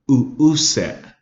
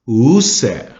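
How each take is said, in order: First: The word has catches in the throat between sounds. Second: The word flows smoothly with no throat catches. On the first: The speaker calls it right. "You got to have those glottal stops in there" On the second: The speaker calls it wrong. "If we took those glottal stops out of there, it would say this"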